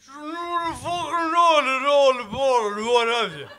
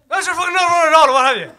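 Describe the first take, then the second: First: It is said slowly, drawn out. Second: It is said at normal speed.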